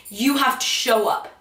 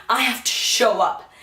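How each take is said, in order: First: "You" pressed, falling end; "You" singled out; stress on you. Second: "have" pressed, falling end; "have" pushed as a duty; stress on have. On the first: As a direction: point the line with "You". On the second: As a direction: lean on "have". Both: Shown as a demonstration.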